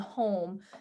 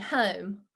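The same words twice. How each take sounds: First: The O vowel sounds neutral and standard. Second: The O vowel sounds twangy and very marked. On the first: "instead of saying home" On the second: "My O's were very, very obvious"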